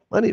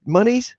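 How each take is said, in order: First: Said in the usual way. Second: Monies? said with a high incredulous rise; Monies? as a scoffing high question; mocking pronunciation. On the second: Shown as a demonstration. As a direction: stretch Monies? up high like an odd new word. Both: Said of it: "What do you mean, monies?".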